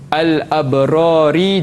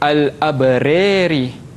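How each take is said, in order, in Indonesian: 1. Vokal ra terakhir diucapkan biasa. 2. Vokal ra terakhir condong ke e.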